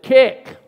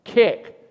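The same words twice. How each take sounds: First: Sharp loud shout at the refs; yelled Kick. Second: Loud call at the refs, a bit less sharp; repeated yell. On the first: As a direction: bark it out like an angry fan. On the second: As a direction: shout it again from the stands. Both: Retold or imitated. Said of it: "That's all I said".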